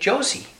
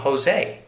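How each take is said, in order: First: The name is said the English way. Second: The name is said the Spanish way. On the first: "if English, you might say Josie" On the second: "Because the J can be pronounced like an H in Spanish"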